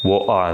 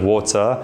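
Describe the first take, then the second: First: The T is replaced by a glottal stop. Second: The middle T is clearly pronounced.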